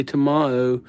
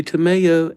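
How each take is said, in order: First: Tomao with an open "mah" sound in the middle; pronounced Tomao. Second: Tomeo with a clear "may" sound in the middle; pronounced Tomeo. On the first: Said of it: "and I say Tomao". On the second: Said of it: "You say Tomeo". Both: Shown as a demonstration.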